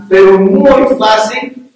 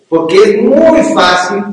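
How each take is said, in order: First: "muy" drawn out very slowly and loud, pitched up; heavier stress on muy. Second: "muy" stretched and louder, slowed; stress on muy. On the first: Pastor repeating his warning, "muy" hammered harder. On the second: Pastor warning husbands, emphatic "muy". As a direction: lean on "muy fácil" to drive it home. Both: Real, not acted. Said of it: "emphatic repetition".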